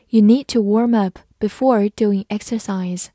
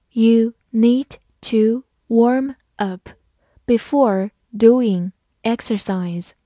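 First: Said in the usual way. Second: "You need to warm up" word by word; slow reading. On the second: Shown as a demonstration. Teacher models the warm-up sentence for learners, slow reading. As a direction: read slowly, a clear gap after each word. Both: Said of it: "好，慢读一遍".

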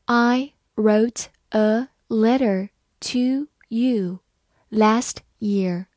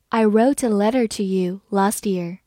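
First: Slow, word by word; slow reading. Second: Said in the usual way. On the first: Shown as a demonstration. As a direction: read it slowly with each word set apart. (慢慢读，一词一顿) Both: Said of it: "好，慢慢来读".

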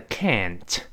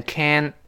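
First: "can't" with a clearly released final t; fully released t. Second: "can't" with the t held back, full "a" vowel; unreleased final t. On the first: Teacher citing the full word, "can't" with released t. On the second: Teacher showing American can't, t left unreleased. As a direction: stop "can't" short, leaving the t unheard. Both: Shown as a demonstration. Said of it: "施暴变成can".

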